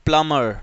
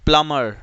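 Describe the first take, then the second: No difference in how they are said.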